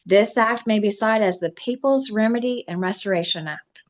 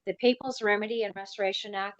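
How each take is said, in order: First: Louder, declaimed title citation; formal proclamation. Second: Said in the usual way. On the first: Acted. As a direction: proclaim the act's name to the room. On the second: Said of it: "title said plainly in aside".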